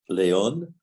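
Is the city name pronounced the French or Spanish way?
French. The name is pronounced with French sounds. The speaker calls it wrong.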